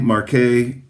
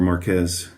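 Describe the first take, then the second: First: The word is pronounced in a French style. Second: The word is pronounced in a Spanish style. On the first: "more close to the uh, French pronunciation" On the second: "from a Spanish language perspective"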